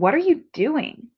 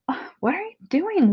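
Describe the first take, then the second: First: It is said in a plain voice. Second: It is said in a whiny voice.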